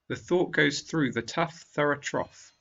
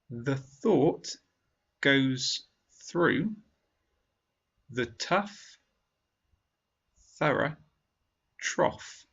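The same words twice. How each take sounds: First: The sentence is spoken at normal speed. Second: The sentence is spoken slowly. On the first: "a second time at normal speed" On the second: "once slowly"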